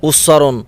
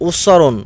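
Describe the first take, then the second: Both takes have the same delivery.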